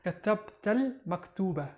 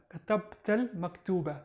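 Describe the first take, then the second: No difference in how they are said.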